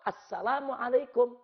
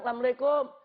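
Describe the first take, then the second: First: The greeting is pronounced in full with every syllable. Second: The greeting is shortened in a local Betawi way. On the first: This is the standard form of the greeting. The speaker calls it right. "Yang betul assalamualaikum" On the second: This is how a local community greets. The speaker calls it wrong. "orang Betawi kalau ngomong datang ke rumah orang"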